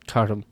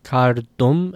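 First: The r sound before the d is very weak. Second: The r sound before the d is full and strong. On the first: "it almost assimilates into the D and it gets very weak" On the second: "a good, comfortable kar"

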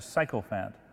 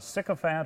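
First: The first syllable sounds like 'sike'. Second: The first syllable sounds like 'sick'.

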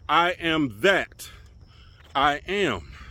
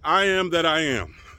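First: It is said with a pause inside the phrase. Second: It is said straight through without a pause.

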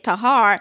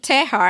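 First: The first vowel sounds like 'ah'. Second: The first vowel sounds like 'eh'. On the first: This is how the name is said in the show. "when I started hearing them say it" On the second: This is how the speaker first read the name. "I said the same thing"

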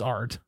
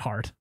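First: The word begins without an H sound. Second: The word begins with an H sound. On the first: The speaker calls it right. "it's art, Silent H" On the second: The speaker calls it wrong. "not heart"

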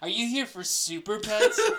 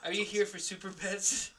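First: It is said in a condescending tone. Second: It is said in a neutral tone.

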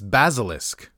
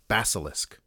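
First: The first s sounds like a z. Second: The first s is a hard s sound. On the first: The speaker calls it right. "the first S is more like a Z" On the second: The speaker calls it wrong. "With a hard S"

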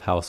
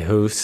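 First: The vowel is a broad, open sound. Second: The vowel is raised, Canadian-style. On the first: "instead of house" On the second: "the only times that you can really tell if someone's really Canadian is their pronunciation of the OU"

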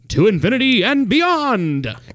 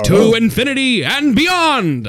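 First: It is a weak, plain Buzz Lightyear voice. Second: It is a powerful Buzz Lightyear impression.

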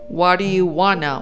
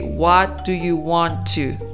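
First: Want to is reduced to wanna, said quickly. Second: Want to is said in full, more slowly.

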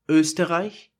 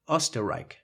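First: It is said with German ö and ch sounds. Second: It is said with English o and k sounds.

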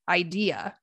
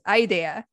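First: The stress falls on the second syllable, English-style. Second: The stress pattern follows the Japanese loanword. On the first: The speaker calls it right. "In English, we say idea" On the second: The speaker calls it wrong. "In Japanese"

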